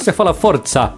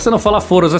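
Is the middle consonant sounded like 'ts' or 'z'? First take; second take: ts; z. First: The middle consonant is a ts sound. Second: The middle consonant is a plain z sound. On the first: The speaker calls it right. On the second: The speaker calls it wrong.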